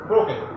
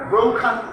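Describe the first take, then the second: First: The k has no breathy puff. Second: The k has a strong breathy puff. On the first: The speaker calls it wrong. "ওই জন্য কে বলার কারণে" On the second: The speaker calls it right. "ব্রোক কা না হয় খা"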